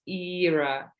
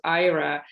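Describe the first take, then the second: First: The name is said the European way. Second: The name is said the North American way. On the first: It is the female name. "in Europe, it's a female name and it is pronounced as Ira" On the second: It is the male name. "in North America, it's not known as a female name because it exists as a male name in North America and it's pronounced as Ira"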